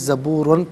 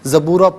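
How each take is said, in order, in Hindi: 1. शब्द का अंत 'न' की आवाज़ से होता है। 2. शब्द का अंत एक लंबे सादे स्वर से होता है। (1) "ज़बूरन पढ़ेंगे" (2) "वफ़ की सूरत में ज़बूरा पढ़ेंगे"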